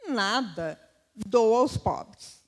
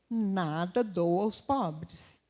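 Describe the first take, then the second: First: There is a clear pause right after 'nada'. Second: The phrase runs on with no pause after 'nada'. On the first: The goods are given to the poor. "Chegou lá e falou assim" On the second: Nothing is given to the poor. "Será paga a conta do padeiro"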